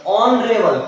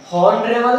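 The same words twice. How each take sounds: First: ऑनरेबल with a silent h, starting on the vowel; ऑनरेबल said as onrebal, no h; correct pronunciation. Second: हॉनरेबल with the h sounded; हॉनरेबल said with a clear h, shown as the wrong way; wrong pronunciation. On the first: Teacher contrasts for students: ऑनरेबल with no h. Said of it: "हॉनरेबल नहीं". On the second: Teacher contrasts for students: हॉनरेबल with h. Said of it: "नहीं". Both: Shown as a demonstration.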